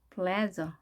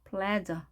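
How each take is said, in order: No difference in how they are said.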